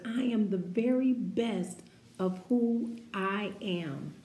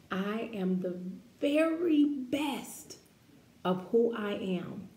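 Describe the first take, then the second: First: Proud declaration, a bit firmer; loud, proud affirmation. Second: "very" sung out high and stretched; stretched affirmation; "very best" lifted high and slowed. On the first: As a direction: say it like you mean it. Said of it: "Say it loud and proud". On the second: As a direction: linger on "very best". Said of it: "say that with me". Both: Shown as a demonstration.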